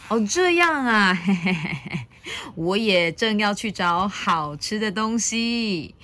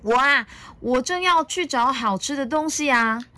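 First: Lightly voiced sly dinosaur with a chuckle; agree, secretly thinking of a meal; scheming Tyrannosaurus. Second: Put-on high, cheerful child-dinosaur voice; playful, lifted storybook child voice; giggly little dinosaur. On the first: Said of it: "霸王龙咕噜一声吞下了一口口水". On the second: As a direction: answer brightly as an eager little one. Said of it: "小良笑嘻嘻地说". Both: A narrator's reading.

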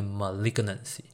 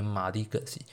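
First: Malignancy stressed on the second syllable, ma-LIG-nancy; correct pronunciation. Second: Malignancy with the stress on the first syllable, MA-lignancy; common mispronunciation. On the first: Doctor correcting viewers' pronunciation, stressing LIG. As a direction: say malignancy properly, hitting LIG. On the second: Doctor showing viewers the common wrong reading, stress on MA. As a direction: say malignancy the wrong way most people do, leaning on MA. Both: Shown as a demonstration. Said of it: "它的重音是放在这个L开始".

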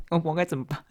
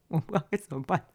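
First: Said in the usual way. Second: Laughing through the words; embarrassed storyteller laughing at her own mess; laughing helplessly. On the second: Real, not acted. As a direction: giggle while admitting defeat.

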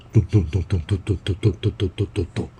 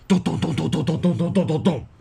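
First: Fast, light clomping of feet up stairs; quick footstep sounds. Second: Steady heavy 咚 beats falling at the end; stomping footstep sounds. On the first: Mom rushing up the stairs, fast footsteps. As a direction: rattle off the 咚咚咚 quickly like hurrying steps. Mother hurrying upstairs footsteps. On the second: Angry dad charging up the stairs, stomping footsteps. Father rushing upstairs. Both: A narrator's reading.

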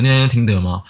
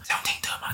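First: Said in the usual way. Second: Hushed, voiceless whisper. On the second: Retold or imitated. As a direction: whisper it secretly after lights-out. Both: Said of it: "就那种气音说".

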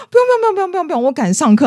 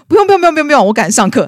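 First: 夸张模仿同学急着推辞; exaggerated brush-off. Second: High, loud rushed refusals; 同学急着推辞; hurried brush-off. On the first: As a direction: ham up his panicked escape. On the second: Retold or imitated. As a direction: wave her off while walking away. Guy brushing her off, hurrying away.

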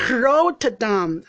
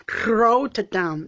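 First: Drawn-out Rotterdam with an untrilled English r; mispronounced Rotterdam. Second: Rotterdam with the r trilled the Dutch way; rolled r Rotterdam. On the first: Learner in Dutch class says Rotterdam with an English r, slowly. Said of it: "我就没有办法发好这个音". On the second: Learner shows the bus driver the Dutch rolled r in Rotterdam. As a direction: tap the tongue on the r in Rotterdam. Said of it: "要打舌的". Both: Shown as a demonstration.

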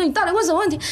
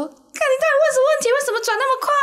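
First: High, pressing question with stress on 问; anxious demand. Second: High, loud terrified shriek, stress on 问; panicked yell. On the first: Friends asking the fourth player again, high and rattled. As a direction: demand an answer, still rattled. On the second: Terrified friends yelling as the plate spins faster, loud and shrill. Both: Retold or imitated.

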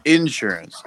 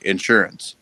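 First: Insurance slowed, stress punched on IN; mock him saying insurance as IN-SUR-ANCE, syllables split; imitated IN-surance. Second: Said in the usual way. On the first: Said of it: "you say". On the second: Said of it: "I say insurance".

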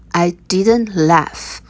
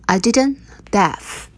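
First: Slow, careful, every word spelled out; slow teaching read. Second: Said in the usual way. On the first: Shown as a demonstration. Teacher slowing it down for learners, slow. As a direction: say it slowly so learners can follow. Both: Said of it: "我没有笑".

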